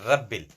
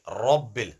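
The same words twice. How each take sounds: First: RABBIL with a thin, light RA; wrong thin Ra. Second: RABBIL with a thick rounded RA, like "rob". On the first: Teacher showing pupils the mistake, thin RA. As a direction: say RABBIL with the vowel thinned. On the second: Teacher modelling the rule for pupils, thick RA. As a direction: open RABBIL on a heavy RA. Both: Shown as a demonstration. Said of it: "it's not Rabbil".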